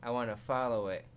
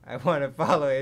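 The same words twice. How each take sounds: First: Said in the usual way. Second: Louder, laughing through it; amused, giggling repeat. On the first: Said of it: "repeats it laughing". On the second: Real, not acted. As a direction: crack up on the repeat. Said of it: "repeat with laugh".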